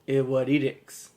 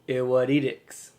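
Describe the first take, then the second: The two takes are said the same way.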